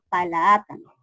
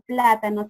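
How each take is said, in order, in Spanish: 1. Una "a" larga extra separa la "p" y la "l". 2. La "p" y la "l" están unidas sin vocal. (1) "sino palaátano" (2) "ya no pronuncia plátano"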